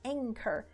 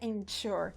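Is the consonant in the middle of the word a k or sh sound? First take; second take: k; sh. First: The middle consonant is a hard k sound. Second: The middle consonant is a soft sh-like sound. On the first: The speaker calls it right. "a gente pronuncia com som de K" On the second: The speaker calls it wrong. "não é anchor"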